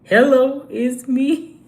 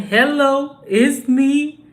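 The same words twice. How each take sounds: First: "Hello" thrown out loud and rising; [name] impression. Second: Loud, higher [name] style "Hello, it's me"; [name] impression. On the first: Repeating [name]'s line louder for the chat. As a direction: call out "Hello, it's me" big like [name]. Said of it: "That's [name]". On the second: Singing out [name]'s greeting to viewers loudly. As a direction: belt it out like [name]. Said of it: "That's [name], ain't it?".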